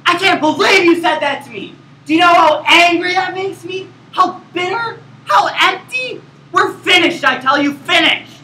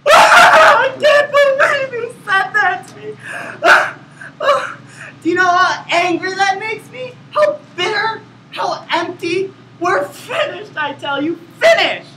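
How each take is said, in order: First: High, loud hammed-up fury; emotional outburst. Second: High, wailing mock sobs through the words; fake crying. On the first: Actor demonstrates an angry outburst at his scene partner. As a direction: rage at your partner like a soap star. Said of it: "include an emotional outburst". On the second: Same outburst redone with hammed-up crying for first place. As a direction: boohoo through every line for the judges. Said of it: "it's recommended that you cry". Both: Shown as a demonstration.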